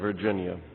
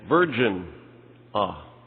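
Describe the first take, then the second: First: It is said as the usual single word. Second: It is split into 'Virgin' and 'ah'.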